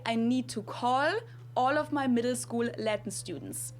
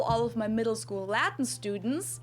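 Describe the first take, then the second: First: Call, all, middle, school with tongue-tip L; German light L. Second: All, middle, school with throaty L; dark English L. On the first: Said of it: "only the L part of the accent". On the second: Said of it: "instead of saying". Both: Shown as a demonstration.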